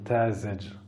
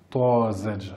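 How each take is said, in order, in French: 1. La première consonne est un t simple, léger. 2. La première consonne est un t emphatique, lourd. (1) "alors qu'ici c'était un t, sinon j'aurais dit Tazedj" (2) "c'était ce mot-là, avec un to"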